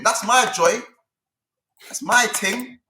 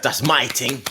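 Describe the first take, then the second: First: With chest. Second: Lower, mocking echo of a proud boast; mock with chest. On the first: Real, not acted. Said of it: "he said that with chest". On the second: Teasing his friend, echoing the boast with chest. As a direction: parrot his line back with fake swagger. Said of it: "He said that with chest".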